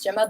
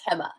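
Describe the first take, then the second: First: The name starts with a J sound. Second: The name starts with an H sound. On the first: The speaker calls it wrong. "It reads Gemma" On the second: The speaker calls it right. "but it's pronounced Hema"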